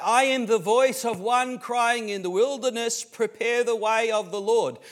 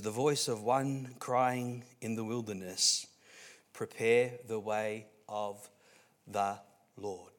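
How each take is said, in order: First: High, full-voiced preacher's cry; loud proclamation. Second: Slow, measured recital with pauses; slow scripture reading. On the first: Preacher voicing John the Baptist announcing himself, loud high proclamation. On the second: Acted. Preacher reading Isaiah to the congregation, slow and measured. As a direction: lower and slower toward the end, word by word. Reads the verse out slowly.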